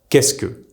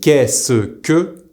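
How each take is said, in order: First: The 'ce' shrinks to a single s sound. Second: The 'ce' is said as a full syllable.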